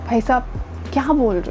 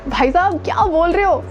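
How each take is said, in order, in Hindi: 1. आवाज़ मायूस और निराश लग रही है। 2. आवाज़ उत्साहित और जोशीली लग रही है। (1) "थोड़े से डिसअपॉइंटेड" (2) "एक्साइटेड होके"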